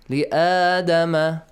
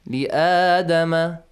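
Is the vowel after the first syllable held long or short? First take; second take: long; long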